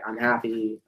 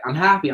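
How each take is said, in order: First: It is said flatly, with no energy. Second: It is said with lively, energetic delivery. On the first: Saying it this way changes nothing. The speaker calls it wrong. "you change nothing about your face or the way you're saying it" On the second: Saying it this way makes you feel it. The speaker calls it right. "it's changing the way you say it, your physiology"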